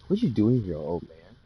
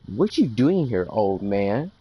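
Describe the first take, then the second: First: It is said in a plain narrating tone. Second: It is said in a bossy, entitled tone.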